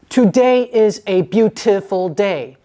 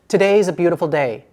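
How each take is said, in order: First: It is said slowly with overemphasized sounds. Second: It is said at a natural conversational speed. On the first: The speaker calls it wrong. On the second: The speaker calls it right.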